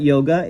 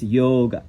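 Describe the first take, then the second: First: Yoga said yo-gah with rising tune; anglicized yoga; wrong yoga. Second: Yoga said lower, falling, yo-ga; correct yoga. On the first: Teacher showing the common way of saying yoga. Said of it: "it's not yoga". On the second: Teacher giving the right yoga. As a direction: Sanskrit yoga. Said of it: "that's really how you would pronounce it". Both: Shown as a demonstration.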